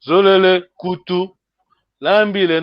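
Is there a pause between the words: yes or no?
yes. There are pauses between the words.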